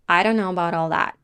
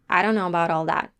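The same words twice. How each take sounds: Both takes have the same delivery.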